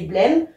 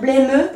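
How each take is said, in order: First: The final e is silent, with no extra syllable. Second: The final e is pronounced as an extra syllable. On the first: The speaker calls it right. "ça fonctionne comme si c'était tout suffocant et blême" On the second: The speaker calls it wrong. "Je devrais dire blêmeux, mais j'ai une virgule et en fait, ça marche pas"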